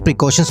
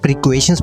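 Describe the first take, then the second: First: The middle syllable sounds like 'caw'. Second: The middle syllable sounds like 'kway'.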